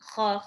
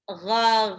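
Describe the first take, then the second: First: The throaty friction is exaggerated, sounding like kha. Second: The throaty friction is moderate and voiced. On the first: The speaker calls it wrong. "tetap nggak sampai lebay jadi kha" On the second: The speaker calls it right. "Tetap ada gha"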